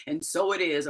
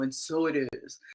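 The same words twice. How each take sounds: First: Low-pitched, solemn spiritual teacher impression; Iyanla Vanzant. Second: Deep, softer poet's voice impression; Maya Angelou. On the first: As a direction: close an affirmation low and sure. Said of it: "in my Iyanla Vanzant voice". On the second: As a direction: lower it into a quiet, weighty pronouncement. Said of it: "or Maya Angelou".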